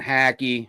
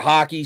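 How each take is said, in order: First: The first syllable sounds like 'hack'. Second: The first syllable sounds like 'hock'. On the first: The speaker calls it wrong. "I always want to say Hackey because it's what it looks like" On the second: The speaker calls it right. "you told me it's like hockey"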